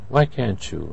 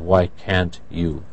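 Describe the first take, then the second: First: The t and y merge into a ch sound. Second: The t and y are pronounced separately. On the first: "when these come in contact, it becomes can't you" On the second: "Instead of why can't you"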